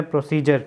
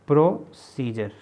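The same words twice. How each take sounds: First: Said in the usual way. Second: "procedure" slowly split as pro, then scissor; syllable by syllable. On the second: Shown as a demonstration. Teacher writing the word out for students, "procedure" slowly broken up. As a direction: say "procedure" in two separated parts. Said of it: "ठीक है जी".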